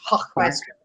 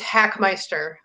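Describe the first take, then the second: First: The name is said with a German pronunciation. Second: The name is said with an American pronunciation. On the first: "If you want to do the German version" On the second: "That's the American version"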